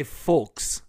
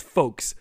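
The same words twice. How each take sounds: First: "folks" with the L sounded, drawn out; wrong, L pronounced. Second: "folks" as fokes, silent L; correct, no L. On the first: Host confessing his mistake, "folks" said slowly with an L. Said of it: "which is wrong". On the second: Host showing the correct way, "folks" with silent L. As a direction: say "folks" without any L sound. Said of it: "without the L. It's just folks". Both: Shown as a demonstration.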